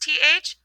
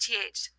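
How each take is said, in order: First: The th sound is buzzed with vibrating vocal cords. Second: The th sound is breathy with no vocal vibration. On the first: "voiced th" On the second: "unvoiced th"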